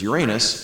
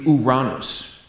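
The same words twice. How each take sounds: First: It is said with the common English pronunciation. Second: It is said with the original Greek pronunciation. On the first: The speaker calls it wrong. "which everybody mispronounces as Uranus" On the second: The speaker calls it right. "if you want to pronounce it the way it should be in Greek"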